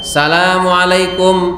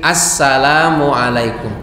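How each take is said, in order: First: The greeting starts directly with 'sa'. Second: The greeting starts with an 'as' sound. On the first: The speaker calls it wrong. "bukan salamualaikum" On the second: The speaker calls it right. "tapi assalamualaikum"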